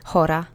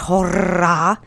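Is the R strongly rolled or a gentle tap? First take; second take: tap; rolled. First: The R is a gentle single tap. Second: The R is strongly rolled and trilled. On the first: The speaker calls it right. "It's just a very gentle kind of bounce" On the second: The speaker calls it wrong. "like a rrr"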